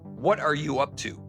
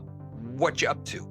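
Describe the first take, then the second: First: Every word is pronounced fully and separately. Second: The words are reduced and run together. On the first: "if a movie says" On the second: "It may come out"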